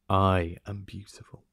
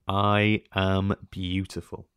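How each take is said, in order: First: It is said plainly, without strong conviction. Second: It is said with strong, sincere conviction.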